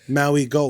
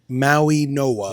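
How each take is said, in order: First: The middle consonant is a hard G sound. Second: The middle consonant is an N sound.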